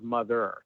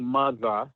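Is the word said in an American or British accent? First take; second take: American; British. First: It is said with an American accent. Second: It is said with a British accent. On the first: "instead of mother" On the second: "a word that you would say with an English accent"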